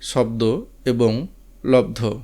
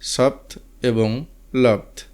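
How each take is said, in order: First: They have the Bengali sound pattern. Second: They have the Hindi sound pattern.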